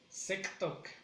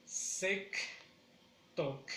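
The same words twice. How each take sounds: First: Said in the usual way. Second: "Sec, Tok" with a long gap; syllable by syllable. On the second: Shown as a demonstration. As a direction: split "Sec, Tok" into two beats.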